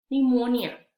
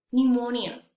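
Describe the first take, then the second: First: "pneumonia" said nu-MO-nya, no p; louder "pneumonia" with a silent p, starting on n. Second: "pneumonia" again nu-MO-nya, no p; louder repeat of "pneumonia", starting on n; silent p repeat. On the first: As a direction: clear teacher demo of "pneumonia", p dropped. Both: Shown as a demonstration. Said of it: "vamos a ver cómo se pronuncian".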